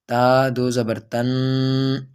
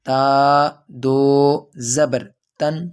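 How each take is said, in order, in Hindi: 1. आख़िरी अक्षर नाक से गूँजता है और खिंचा हुआ है। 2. आख़िरी अक्षर छोटा है और पक्का रुका हुआ है। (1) "यानी कि नाक में आवाज़ ले जाते हैं और खींचते हैं" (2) "आवाज़ बिल्कुल जम जाए"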